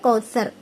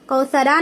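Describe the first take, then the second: First: The word ends on a stopped r sound. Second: The word ends with a short vowel after r. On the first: The reader stops at the end of the verse. The speaker calls it right. "बल्कि कौसर कर को टिकाना है" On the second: The reading continues without stopping. The speaker calls it wrong. "यहाँ पर कौसरा नहीं"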